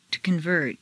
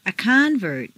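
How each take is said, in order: First: ConVERT, stressed on the second syllable. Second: CONvert, stressed on the first syllable. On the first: Teacher models verb "convert", second-syllable stress. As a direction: hit VERT in "convert". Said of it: "to the second syllable". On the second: Teacher models noun "convert", first-syllable stress. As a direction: hit CON in "convert". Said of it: "first syllable for nouns". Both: Shown as a demonstration.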